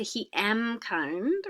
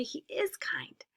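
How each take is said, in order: First: Slow, careful wrong form; slow wrong example. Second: Whispered, slow correct form; soft correct form. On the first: Teacher showing students the wrong form, slowly. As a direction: spell out the wrong version slowly. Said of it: "We don't say". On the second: Teacher whispering the correct sentence to students. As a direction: breathe out the right answer gently. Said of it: "We have to say". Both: Shown as a demonstration.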